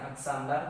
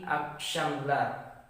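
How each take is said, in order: First: The middle consonant is a plain s sound. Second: The middle consonant is an sh sound. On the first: The speaker calls it wrong. "bukan aksamlar" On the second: The speaker calls it right. "tapi i aksyamlar"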